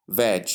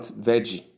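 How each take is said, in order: First: "veg" as one beat, VEJ; correct first syllable. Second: "veggie" as two beats, VEJ-ee; wrong first syllables. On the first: Teacher models the start of vegetable, one-syllable VEJ. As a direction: end "veg" on the J sound with no vowel. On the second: Teacher shows what to avoid, two-syllable VEJ-ee. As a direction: add an EE to the end of "veggie". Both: Shown as a demonstration. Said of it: "not veggie".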